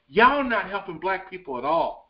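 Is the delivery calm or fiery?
fiery. It is said in a fiery, ranting way.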